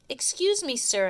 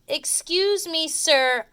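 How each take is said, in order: First: It is said at a normal, softer volume. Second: It is said more loudly.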